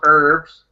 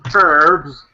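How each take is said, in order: First: The word begins with no h sound. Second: The word begins with a clear h sound. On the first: The speaker calls it wrong. "not herbs" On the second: The speaker calls it right. "the letter H is kind of important than herbalist or herbs. It's kind of a significant part of herbs"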